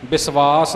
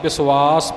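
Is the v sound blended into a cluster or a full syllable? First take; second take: full; blended. First: The v is pronounced as a full separate syllable. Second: The v is blended into the s as a cluster. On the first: The speaker calls it wrong. "ਵਿਸ਼ਵਾਸ ਨਹੀਂ" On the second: The speaker calls it right. "ਵਿਸ਼ਵਾਸ ਪਾਠ ਇਸ ਦਾ ਹੋਵੇਗਾ"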